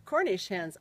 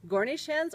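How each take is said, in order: First: Said in the usual way. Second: "Gornish" with g in place of c; mother's mispronunciation. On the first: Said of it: "or is it". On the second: Retold or imitated. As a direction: say "Gornish hens" for Cornish hens. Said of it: "she usually said Gornish hens".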